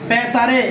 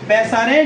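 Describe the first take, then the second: Both takes have the same delivery.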